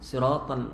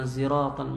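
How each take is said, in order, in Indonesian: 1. Diawali dengan bunyi s biasa. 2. Diawali dengan bunyi z. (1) "dia baca sin" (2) "ada yang ziratan"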